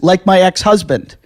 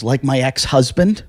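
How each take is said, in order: First: "Like my ex-husband." louder, falling on "my"; stating. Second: "Like my ex-husband?" slow, rising at the end; asking. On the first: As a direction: say it flat as a fact, push "my". She repeats it flatly. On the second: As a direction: ask it as a real question on "ex-husband". Traffic lady asks, then repeats. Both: Retold or imitated.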